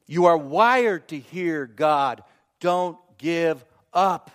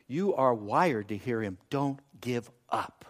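First: Slow, firm, "wired" hit hard; "Don't give up" in slow, separated words; emphatic repeat. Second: Low, soft, slowing to spaced words; quietly encourage, letting each word land; gentle reassurance. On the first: Preacher drives home "wired to hear God", slowly and emphatically. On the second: Preacher to those who struggle hearing God, gently reassuring. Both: Real, not acted.

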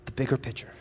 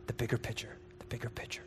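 First: Much softer, lower; quiet. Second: Fading into a whisper. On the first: Preacher drawing the crowd in, quiet and low. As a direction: drop the voice low and soft. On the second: Preacher fading the phrase down to a whisper. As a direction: let it die to a breath. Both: Shown as a demonstration.

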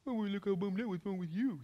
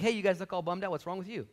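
First: High, put-on sneering parrot voice; mocking echo. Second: Said in the usual way. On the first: Mad disciple parroting Jesus' question, mocking echo. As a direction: throw the question back in mimicry. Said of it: "This guy's mad". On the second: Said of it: "Jesus strolls up along. He's like".

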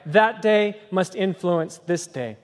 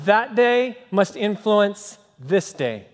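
The two takes are said the same way.

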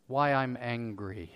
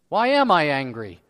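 First: Slow, low and soft; subdued self-question. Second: Louder, indignant demand; acted angry self-question. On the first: Acted. Preacher examining himself before the congregation, subdued. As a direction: say it quietly, taking stock of yourself. Calm evaluating, then acted outburst. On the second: Preacher acting out his own anger, indignant. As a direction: throw the question out crossly.

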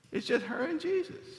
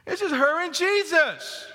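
First: Softer, higher hushed line. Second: High, projected emphatic repeat. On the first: Preacher picturing Mary alone with Jesus, hushed. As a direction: say it softly with high pitch, in awe of the moment. Hushed take before louder repeat. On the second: Preacher repeating the point to the congregation, emphatic. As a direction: lift the pitch and drive it home. Louder repeat of hushed line. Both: Real, not acted.

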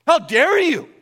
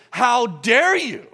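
First: Higher, louder angry "How dare you", hitting "dare"; angry rebuke. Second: Slow, stern HOW DARE YOU with DARE leaned on; stern rebuke. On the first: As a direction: bark it like a furious God. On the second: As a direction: scold slowly, pressing on "dare". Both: Retold or imitated. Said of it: "put a finger in my face and said".

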